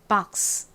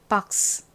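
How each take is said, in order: Both takes have the same delivery.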